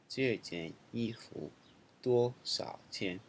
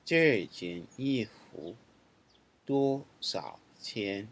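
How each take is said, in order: First: Second slow model reading. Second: Slow, clear teacher reading of the sentence; slow model reading. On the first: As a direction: say it again slowly and evenly. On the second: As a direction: model each word slowly for learners. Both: Shown as a demonstration. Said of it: "let's look at some example sentences".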